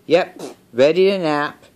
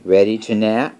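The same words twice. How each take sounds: First: High-pitched story piglet answering; Piggy. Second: Lightly voiced story elephant asking, louder; Gerald. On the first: Piggy answers Gerald about the nap, high character voice. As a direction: answer higher, falling at the end. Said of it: "And the piggy says". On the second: Gerald asks Piggy about napping, lightly voiced question. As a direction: ask it as a question, a bit louder, rising at the end. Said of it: "So Gerald says". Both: A narrator's reading.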